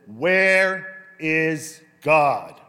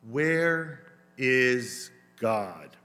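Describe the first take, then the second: First: It is asked louder, in a firmer voice. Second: It is asked in a calm, quieter voice.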